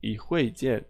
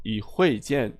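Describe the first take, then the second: Both takes have the same delivery.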